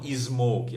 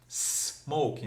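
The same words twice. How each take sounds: First: It starts with an added vowel before the s. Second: It starts directly with a hissing s sound. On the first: The speaker calls it wrong. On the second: The speaker calls it right.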